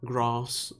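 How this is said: It is said with a Southern English vowel. "as opposed to grass that the uh, the Southern English do"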